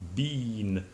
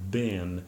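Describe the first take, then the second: First: The word has a long E vowel. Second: The word has a short I vowel. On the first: This is the usual British pronunciation. "it's pronounced as a, a long E sound" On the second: This is the usual American pronunciation. "as I pronounce it, bin ... with a short I sound"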